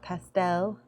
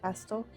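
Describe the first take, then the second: First: It is said in a non-British accent. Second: It is said in a British accent.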